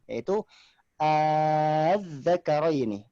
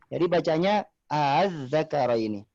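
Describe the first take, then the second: First: The hamza becomes a long drawn-out vowel. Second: The hamza is softened and not drawn out. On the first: "maka dibaca panjang" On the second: "yang kedua baca tashil"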